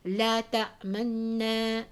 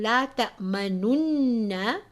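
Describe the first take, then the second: First: A very faint u vowel sounds before the n. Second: The u vowel before the n is fully voiced. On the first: "Rom, where only one third of the sound of the Dhamma can be heard" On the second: "rather than saying"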